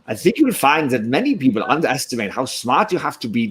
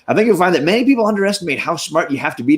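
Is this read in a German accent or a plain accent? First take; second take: German; plain. First: It is read in a German-style accent. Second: It is read in a plain, unaccented voice.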